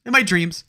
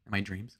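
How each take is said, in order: First: Louder, higher punchline voice; emphatic repeat. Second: Said in the usual way. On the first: Real, not acted. Streamer repeating his crude joke to the chat, loudly. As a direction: call it out high and loud.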